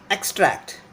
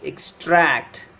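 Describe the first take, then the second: First: Extract with the stress on EX; EXtract, strong first syllable; noun stress. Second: Extract with long, stressed -TRACT; exTRACT, second syllable stretched; verb stress. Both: Shown as a demonstration. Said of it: "The verb is extract".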